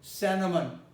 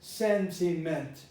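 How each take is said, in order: First: The final t sound is dropped after n. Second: The final t sound is clearly pronounced. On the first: The speaker calls it right. "The final T doesn't sound" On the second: The speaker calls it wrong. "many people might go over it as sentiment"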